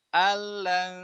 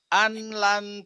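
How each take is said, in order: First: The n merges fully into the following l. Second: The n is pronounced separately before the l. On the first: The speaker calls it right. "Quran datang alan tuh ... enak banget kan?" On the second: The speaker calls it wrong. "ribet banget di mulut"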